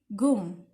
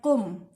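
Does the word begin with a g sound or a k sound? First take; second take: g sound; k sound. First: The word begins with a g sound. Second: The word begins with a k sound. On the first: This is the colloquial spoken form. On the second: This is the standard literary form.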